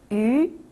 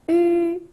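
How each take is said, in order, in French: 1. La hauteur monte du milieu au haut. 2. La hauteur reste haute et stable.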